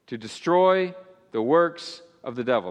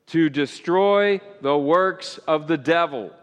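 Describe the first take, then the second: First: It is said weakly, with little force. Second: It is said strongly, with more force.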